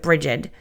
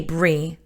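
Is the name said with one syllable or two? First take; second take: two; one. First: The name is said as two syllables. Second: The name is said as one short syllable. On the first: This is how many other people pronounce it. "a lot of people pronounce it Brigid" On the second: This is the pronunciation the speaker has always known. "I say Brie"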